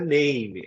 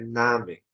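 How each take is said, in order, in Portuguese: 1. Ela é pronunciada como a palavra em inglês. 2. Ela é pronunciada como a palavra em alemão. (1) "Cuidado que não é name" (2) "é Name"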